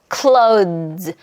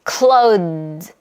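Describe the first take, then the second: The two takes are said the same way.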